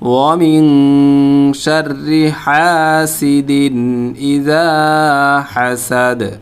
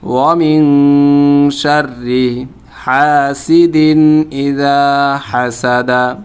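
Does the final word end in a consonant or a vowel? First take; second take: consonant; vowel. First: The final word ends on a bare consonant. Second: The final word ends with a short vowel. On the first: The reader stops at the end of the verse. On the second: The reading continues without stopping.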